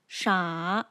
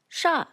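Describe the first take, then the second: First: The pitch falls and then rises. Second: The pitch falls downward. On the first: "falls and then rises" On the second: "falls like this"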